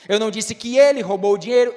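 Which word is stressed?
ele. The stress falls on the word ele. Someone else stole it. "então quem foi que roubou?"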